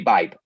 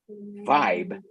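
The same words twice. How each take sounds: First: The word starts with a b sound. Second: The word starts with a v sound. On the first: "We normally say" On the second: "it's hard for us to pronounce"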